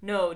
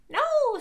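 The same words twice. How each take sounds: First: It is said in a normal voice. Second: It is said in a high-pitched voice.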